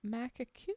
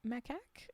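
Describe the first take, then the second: First: "macaque" tried with an added ending after the k; unsure pronunciation. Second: "Macaque" as "mak-ak", questioning; unsure pronunciation. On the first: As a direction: try "macaque" uncertainly, ending past the k. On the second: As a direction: try "Macaque" softly as two syllables, mak-ak. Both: Real, not acted. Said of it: "I don't know how to pronounce that".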